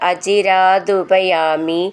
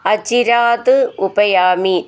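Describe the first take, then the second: First: The two words are joined into one. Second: The two words are said separately.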